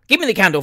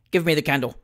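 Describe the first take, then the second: First: Higher, louder, irritated order; raised-voice, exasperated command; impatient demand. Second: Said in the usual way. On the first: A narrator's reading. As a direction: demand it sharply, losing patience. Father repeats demand impatiently.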